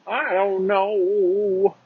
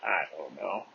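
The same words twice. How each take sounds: First: High, drawn-out, singsong "I don't know"; silly high voice. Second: Low, soft, noncommittal "I don't know"; low mumble. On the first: Pretend. Goofing on his own uncertainty, silly high drawl. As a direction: jump way up and stretch the last word. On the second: Real, not acted. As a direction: let it drop low and quiet. Same words, low then high.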